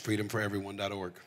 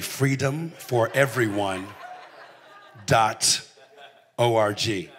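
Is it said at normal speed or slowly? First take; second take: normal speed; slowly. First: It is said at normal speed. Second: It is said slowly.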